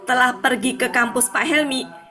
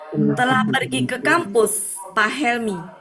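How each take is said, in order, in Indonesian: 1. 'Pak Helmi' langsung menyambung dari 'kampus'. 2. Ada jeda yang memisahkan 'Pak Helmi' dari 'kampus'. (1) "Bukan gini" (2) "intonasinya harus pas"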